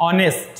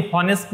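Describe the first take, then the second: First: অনেস্ট with the h dropped, starting on the vowel; silent h. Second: হনেস্ট with the h sounded, as in hat; wrong pronunciation with h. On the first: Teacher giving students the right sound, অনেস্ট with silent h. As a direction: say অনেস্ট with no h, as on-est. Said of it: "এটা কিন্তু উচ্চারণ হয় অনেস্ট". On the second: Teacher showing students the wrong way, হনেস্ট with h. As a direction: say হনেস্ট with a clear h. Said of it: "হনেস্ট নয়". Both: Shown as a demonstration.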